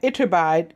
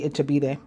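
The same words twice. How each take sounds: First: The name is pronounced with English sounds. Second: The name is pronounced with Spanish sounds.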